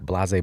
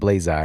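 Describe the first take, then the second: First: The word ends without an 'eye' sound. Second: The word ends with an 'eye' sound. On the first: The speaker calls it wrong. "I was like blase" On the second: The speaker calls it right. "so I started calling it Blaze Eye"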